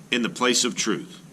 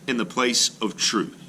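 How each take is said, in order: Both takes have the same delivery.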